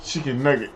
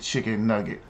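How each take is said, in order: First: Soft and low, breaking into laughs; laughing at the memory; retold through laughter. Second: Put-on low, soft, deadpan kid voice; a hint of a small child, quiet and flat; little boy's answer. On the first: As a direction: repeat the kid's line while cracking up. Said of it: "I get this picture". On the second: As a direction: say it like a toddler answering innocently. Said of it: "He said".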